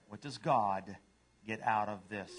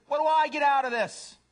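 First: Low, understated question with pauses; humble dog. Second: High, loud demand; self-centered cat. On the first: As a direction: ask it low and unhurried. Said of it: "And a dog says". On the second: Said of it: "A cat says". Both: Acted.

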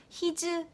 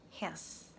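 First: HIS as hi-jeu, two Korean syllables, higher; wrong pronunciation. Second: HIS in one short syllable; natural pronunciation. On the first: Teacher showing the mistake, Koreanized his. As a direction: add a vowel after the z in HIS. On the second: Teacher correcting learners, natural his. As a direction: end HIS on the consonant, no added vowel. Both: Shown as a demonstration. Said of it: "His 아니고 his".

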